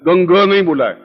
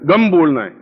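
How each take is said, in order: First: गंग with a ringing ng sound at the end; wrong pronunciation. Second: गम closed on a clean m; right pronunciation. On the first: Teacher shows students the wrong गंग sound. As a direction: say गंग as gang, nasal ng closing the word. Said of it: "गंग नहीं बोलना है". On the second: Teacher shows students the correct गम sound. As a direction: say गम as gam, lips shut on m. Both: Shown as a demonstration.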